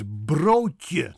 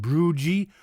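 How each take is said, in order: First: Broodje with rolled r and long oh; slow Dutch broodje, "bro-tyuh"; correct Dutch pronunciation. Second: Broodje as "broo-jee"; wrong American pronunciation. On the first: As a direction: roll the r in broodje, end in tje. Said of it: "So it's broodje, not". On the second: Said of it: "not broodje". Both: Shown as a demonstration.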